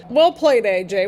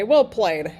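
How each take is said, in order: First: Excited praise. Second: Said in the usual way. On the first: Real, not acted. To AJ after the referee's shove, excited praise. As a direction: cheer "Well played" at AJ.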